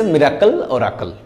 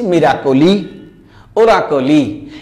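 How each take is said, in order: First: মিরাকল, ওরাকল closed on the final l with no vowel after it; modern pronunciation. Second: মিরাকলি, ওরাকলি said with a clear final i sound; old Sanskrit pronunciation. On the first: Teacher shows students today's clipped modern reading. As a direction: stop মিরাকল and ওরাকল right on the l. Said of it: "এখন modern pronunciation হয়ে গেছে". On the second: Teacher shows students the old Sanskrit reading with final i. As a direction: end মিরাকলি and ওরাকলি on a distinct i vowel. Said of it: "সংস্কৃত ব্যাকরণ আমি পড়েছি". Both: Shown as a demonstration.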